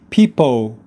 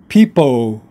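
First: The final L is left out. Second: The final L is left out.

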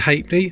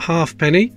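First: The word is said in a shortened, reduced form. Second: The word is said fully, as it is spelled. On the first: This is how everyone actually said it. The speaker calls it right. "And it is a halfpenny" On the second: This is only how it is written. The speaker calls it wrong. "It says halfpenny on it, but nobody said that"

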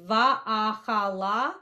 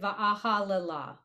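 First: The word ends in 'hala' with a silent shva. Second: The word ends in 'halela' with an extra vowel. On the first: This is the technically correct form. "So it's technically va'ahala" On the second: This is a commonly heard form. "but I've also heard it va'ahalela"

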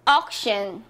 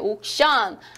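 First: It is said English-style with a reduced vowel. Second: It is said with Korean-style syllables and vowels. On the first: "하지만 어떻게 발음을 하시죠?" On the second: "옥션이라고 하죠, 우리는"

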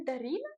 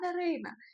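First: The second vowel is a clear 'ee' sound. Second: The second vowel is a duller 'ih' sound. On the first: The speaker calls it wrong. "ти навіть моє ім'я правильно не можеш вимовити" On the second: The speaker calls it right. "моє ім'я Дарина"

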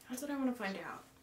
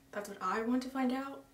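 First: The word I is not specially stressed. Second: The word I is strongly stressed.

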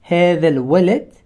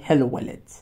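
First: The word for 'this' is said in full. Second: The word for 'this' is merged into the noun. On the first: "instead of saying" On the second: "you can sometimes synthesize them or amalgamate them with other nouns"

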